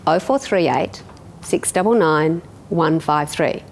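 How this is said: The digits are grouped with pauses between groups. It is easy for the listener to remember. The speaker calls it right. "Most people say it in four, three, three"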